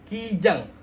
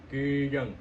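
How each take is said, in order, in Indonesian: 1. Kata kijang diucapkan dengan jelas dengan mulut terbuka. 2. Kata kijang digumamkan dengan mulut hampir tertutup. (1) "kalau kita buka mulutnya" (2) "kalau kita nggak buka mulutnya nggak bakal jelas"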